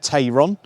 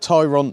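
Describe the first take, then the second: First: The first syllable sounds like 'tay'. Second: The first syllable sounds like 'tie'. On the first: The speaker calls it wrong. "and not Tayron" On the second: The speaker calls it right. "it is called Tyron"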